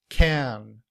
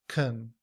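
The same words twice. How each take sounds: First: The vowel is a full, clear 'a' sound. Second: The vowel is a weak schwa sound. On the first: "In citation form" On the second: "In reduced form, we don't say can. Rather, the A sound becomes the schwa"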